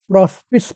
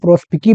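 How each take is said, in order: First: The word ends with an 's' sound. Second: The word ends with a 'kee' sound. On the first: "English में इसको आप प्रोस्पिस पढ़ सकते हैं" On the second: "इटालियन के हिसाब से इसका अगर प्रोनाउंसिएशन किया जाए"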